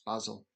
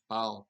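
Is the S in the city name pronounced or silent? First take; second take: pronounced; silent. First: The S in the middle is pronounced. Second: The S in the middle is silent. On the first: The speaker calls it right. "but apparently not" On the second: The speaker calls it wrong. "I always thought that city had a silent S"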